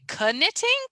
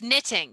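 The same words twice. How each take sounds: First: The word starts with a K sound. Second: The word starts with an N sound. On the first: The speaker calls it wrong. "when you first read it, you think knitting" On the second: The speaker calls it right. "it's a silent K"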